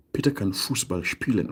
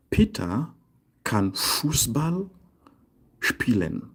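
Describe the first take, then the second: First: Said in the usual way. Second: Peter and Fußball raised and held, spielen dropping; slow model sentence. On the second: Shown as a demonstration. Teacher giving a können example, slow piece-by-piece modelling. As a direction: pause between each piece for the learners.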